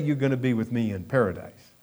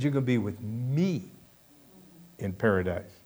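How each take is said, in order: First: The stress is on the word paradise. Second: The stress is on the word me.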